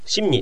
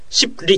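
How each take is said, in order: First: The word has nasal n sounds before ni. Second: The word keeps a p stop before li. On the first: The speaker calls it right. "シンニって言った方が簡単なわけですよ" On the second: The speaker calls it wrong. "これ間違う人はシップリと言っちゃうわけ"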